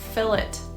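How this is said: It is said with a British pronunciation. "Here, the more common pronunciation I hear is"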